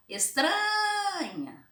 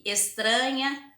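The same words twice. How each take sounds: First: Estranha with TRA held long and high; stress on TRA. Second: Said in the usual way. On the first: Shown as a demonstration. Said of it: "vocês vão pronunciar". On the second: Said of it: "pra vocês pronunciar e marcar".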